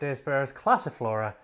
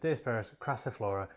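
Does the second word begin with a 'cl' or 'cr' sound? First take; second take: cl; cr. First: The second word begins with a 'cl' sound. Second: The second word begins with a 'cr' sound. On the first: The speaker calls it wrong. "my mispronunciation" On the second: The speaker calls it right. "indeed the correct pronunciation is"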